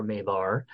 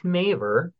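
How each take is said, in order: First: "Mavar" said as MAY-var; "Mavar" with its last syllable like "var"; alternative pronunciation. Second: "Maver" said as MAY-ver; "Maver" rhyming with waver; first pronunciation offered. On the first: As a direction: offer "Mavar" ending in a full ar. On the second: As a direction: say "Maver" ending in an unstressed er. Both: Shown as a demonstration. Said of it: "or Mavar".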